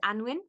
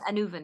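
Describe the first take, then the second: First: The word is said with two syllables. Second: The word is said with three syllables. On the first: The speaker calls it wrong. "it's spelled Anwin" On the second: The speaker calls it right. "it's pronounced Anuvan, actually. That's the correct correct pronunciation"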